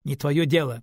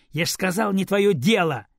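First: Said in the usual way. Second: Loud, higher rude retort; girl rudely shuts down her grandmother, loud and higher. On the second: Acted. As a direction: snap it back rudely at grandma. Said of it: "грубо сказала девочка".

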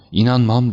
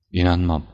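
First: High, loud cry of denial; shouted disbelief. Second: Understated cry of disbelief; first refusal, still held in; restrained outcry. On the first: Banker refusing the news about his niece, shouted disbelief. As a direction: burst out in refusal, louder and higher. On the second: Banker hearing of his niece's betrayal, restrained outcry. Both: A narrator's reading. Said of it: "diye bağırdı bankacı".

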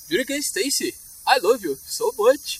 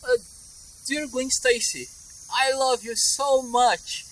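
First: Indian accent. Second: Slow, drawn-out, higher British English; British accent. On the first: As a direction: do a put-on Indian accent, drawing out the end. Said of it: "treinando o meu sotaque da Índia". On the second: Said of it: "O inglês britânico". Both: Shown as a demonstration.

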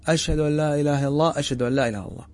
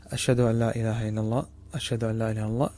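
First: Mildly raised recitation, calling out to people; raised voice demo. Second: Softly recited testimony, voice held down; low voice demo. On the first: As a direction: lift the voice a little as if calling others. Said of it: "ثم ترفع صوتك وتسمع الناس". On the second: Teacher demonstrating the quiet first pair of the adhan, softly. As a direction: say the shahada under your breath. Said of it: "هذا بصوت منخفض". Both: Shown as a demonstration.

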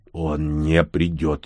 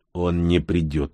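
First: Very slow, measured repeat; controlled, final answer; firm. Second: Slow, understated reluctant answer; subdued, grudging statement. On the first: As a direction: state it firmly, word by word. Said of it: "ещё раз твёрдо повторил Всеволод". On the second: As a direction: say it unwillingly, without explaining. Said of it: "нехотя сказал Всеволод". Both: A narrator's reading.

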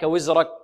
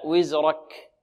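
First: "وزرك" said quickly, without careful letter release; wrong, unseparated وزرك. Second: Slow "وزرك" with a breath release on final ك; corrected وزرك. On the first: Teacher showing what to avoid in the verse, careless pronunciation. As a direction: say "وزرك" in the faulty, hurried way. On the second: Teacher correcting the word for students, slow careful pronunciation. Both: Shown as a demonstration. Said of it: "لا".

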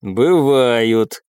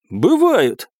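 First: Level, understated contradiction; disagreeing. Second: Higher-pitched contradiction; confident retort. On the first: Curator disagrees with his men, understated. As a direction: calmly overrule them. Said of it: "не согласился с ними куратор". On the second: Hidden commoner steps out to contradict the baron, confident. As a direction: announce yourself with one word. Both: A narrator's reading.

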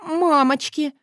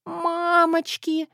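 First: Horrified repeat. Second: High, slow, drawn-out strained wail; pitiful hoarse wheeze. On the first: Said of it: "повторила я". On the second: Woman staring at her own face in the mirror, wheezing pitifully. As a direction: squeak it out pitifully, voice failing. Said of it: "засипела жалостно и надрывно". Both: A narrator's reading.

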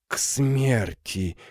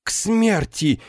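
First: Slow repetition. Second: High shocked cry; horrified exclamation. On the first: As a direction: let «К смерти!» sink in slowly. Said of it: "медленно повторила она". (медленно и тихо: «К смерти!») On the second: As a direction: recoil as if struck by lightning. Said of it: "воскликнула Гудула". (потрясённый возглас, высоко) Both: Acted.

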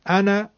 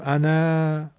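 First: "انا" ending on a short a; "انا" with a brief final vowel; short final fatha. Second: "انا" with its final a stretched out, the wrong way; "انا" with a long final vowel, as an error. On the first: ("انا" با فتحهٔ کوتاه) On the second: ("انا" با الف کشیده، نادرست) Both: Shown as a demonstration.

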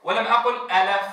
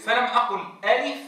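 First: ألف with a shifted vowel; ألف said the wrong way. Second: ألف with a clean full a; ألف said plainly. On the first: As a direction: say ألف the faulty way. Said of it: "قلت ألي". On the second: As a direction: say ألف with a pure fatha. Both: Shown as a demonstration.

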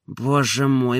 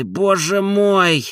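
First: Said in the usual way. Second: Higher and drawn out slowly, a despairing sigh; anguished. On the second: Acted. Oblomov despairing over his marriage, drawn out. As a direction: stretch "боже мой" out high in despair.

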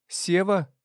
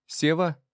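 First: More urgent second call; insistent call to wake him. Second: Raised voice calling his name, higher; first call of the name. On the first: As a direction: call the name again, higher still, falling. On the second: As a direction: call to wake him up. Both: A narrator's reading. Someone shaking him, calling.

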